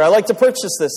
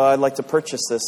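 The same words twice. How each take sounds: First: It is said more loudly. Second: It is said at a normal volume.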